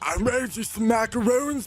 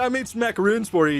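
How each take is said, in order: First: It is said in a seductive, sultry tone. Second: It is said in a casual, friendly tone.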